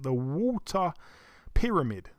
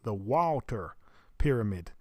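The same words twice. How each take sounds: First: It is said in a non-American accent. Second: It is said in an American accent.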